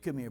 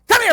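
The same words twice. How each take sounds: First: It is said in a warm, gentle tone. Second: It is said in a harsh, threatening tone.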